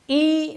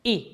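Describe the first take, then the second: First: ای drawn out long and higher, "eee"; long raised "ee" on ای; wrongly stretched vowel. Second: ای cut short as a brief "i"; quick Arabic "i" on ای; short kasra sound. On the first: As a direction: hold ای as a long "ee". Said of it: "ای نہیں". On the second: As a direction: say ای short, without stretching it. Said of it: "اصل میں عربی لہجہ ای ہے". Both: Shown as a demonstration.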